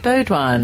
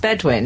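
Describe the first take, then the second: First: The first syllable sounds like 'bow'. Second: The first syllable sounds like 'bed'. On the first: The speaker calls it wrong. "Did I say Baudouin?" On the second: The speaker calls it right. "It's Bedouin"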